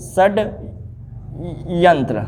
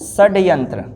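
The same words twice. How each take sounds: First: षड्यंत्र drawn out very slowly and softly, shad-yan-tra; slow dictation. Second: Said in the usual way. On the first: Shown as a demonstration. Teacher answering how to write it, slow and soft. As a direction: repeat षड्यंत्र slowly so it can be copied. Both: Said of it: "इसको क्या सही से लिखेंगे?".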